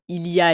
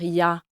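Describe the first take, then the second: First: Every syllable of the phrase is fully pronounced. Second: The phrase is shortened, with sounds dropped. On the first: The speaker calls it wrong. "au lieu de dire" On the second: The speaker calls it right. "elle va dire ... qu'elle fait ses réductions"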